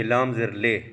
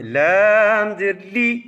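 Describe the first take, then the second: First: لام زیر لے ending on a lax "ay"; wrong majhool vowel. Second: Slow, raised لام زیر لی ending on a pure "ee"; clear ee vowel. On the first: Teacher showing the mistake, لام زیر لے with an "ay" vowel. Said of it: "اب یوں نہیں کہیں گے". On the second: Teacher drilling the spelling, لام زیر لی chanted up to a clear "ee". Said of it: "اب صرف لام کے نیچے زیر پڑھیں". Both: Shown as a demonstration.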